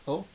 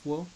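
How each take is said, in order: First: It begins directly with the vowel. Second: It begins with a w sound. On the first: The speaker calls it right. "It's pronounced "o."" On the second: The speaker calls it wrong. "which actually isn't pronounced "wo.""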